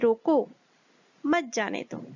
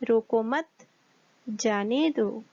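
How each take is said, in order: First: There is a pause right after 'रोको'. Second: There is a pause right after 'मत'.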